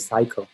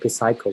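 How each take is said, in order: First: The initial P sound is not pronounced. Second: The initial P sound is pronounced. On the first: The speaker calls it right. "we say psycho. So P is silent" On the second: The speaker calls it wrong. "we don't say psycho"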